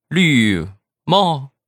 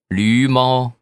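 First: Both syllables take a sharply falling tone. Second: The syllables keep their usual non-falling tones. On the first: It hints at a green hat, being cheated on. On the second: It names a donkey and a cat.

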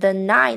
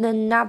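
First: The I is fully pronounced after then. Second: The I is reduced and linked to then. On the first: The speaker calls it wrong. "不是念成then I 呢" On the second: The speaker calls it right. "为什么念成then not"

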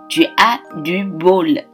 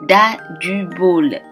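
First: 'Tu as' is said fully as two syllables. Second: 'Tu as' is merged into a single 'da'.

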